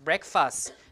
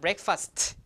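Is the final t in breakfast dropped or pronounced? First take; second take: dropped; pronounced. First: The final t sound is dropped. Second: The final t sound is pronounced. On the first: The speaker calls it right. "the last T is, is, is, is not um, pronounced" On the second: The speaker calls it wrong. "not breakfast from months like that"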